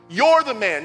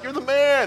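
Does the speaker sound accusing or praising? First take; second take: accusing; praising. First: It is said in a serious, accusing way. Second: It is said in a cheerful, praising way. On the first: The listener is the guilty one being talked about. The speaker calls it right. "He's like, it's you" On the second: The listener is being complimented. The speaker calls it wrong. "this isn't like"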